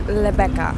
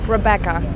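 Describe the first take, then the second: First: The name starts with an L-like sound. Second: The name starts with a clear R sound. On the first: This is how others mispronounce the name. The speaker calls it wrong. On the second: This is the name's own pronunciation. The speaker calls it right.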